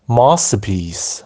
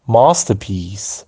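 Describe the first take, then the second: First: It is said in a British accent. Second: It is said in a British accent.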